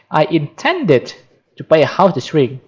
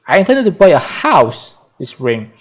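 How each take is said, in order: First: The stress is on the word intended. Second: The stress is on the word house.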